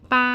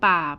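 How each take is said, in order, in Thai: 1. เสียงคงที่ สูงและราบ 2. เสียงต่ำลงแล้วขึ้น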